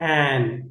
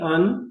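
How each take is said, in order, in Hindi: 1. यह स्वर एक पूरी, साफ़ और खुली आवाज़ है। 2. यह स्वर एक छोटी, हल्की 'uh' आवाज़ है।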